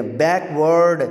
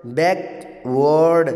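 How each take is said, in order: First: Said in the usual way. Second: "backward" split slowly into बैक and word, each stressed; stress on both syllables. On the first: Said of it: "या बैक पे stress डाल लें". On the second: Shown as a demonstration. Teacher offering either stress, "backward" slowly split in two. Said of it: "बैक पे stress डाल लें या word पे".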